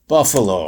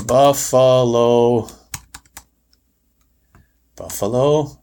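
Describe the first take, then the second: First: Said in the usual way. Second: Slow, drawn-out spelling check. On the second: Shown as a demonstration. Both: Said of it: "I probably didn't spell it right".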